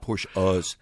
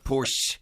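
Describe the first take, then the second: First: The name ends with an extra final syllable. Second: The name ends without an extra final syllable. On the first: The speaker calls it wrong. "not Porsche-us" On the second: The speaker calls it right. "It's Porsche"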